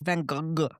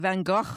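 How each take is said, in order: First: The name is said with a French pronunciation. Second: The name is said with a Dutch pronunciation. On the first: "and the French" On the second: "is the Dutch way"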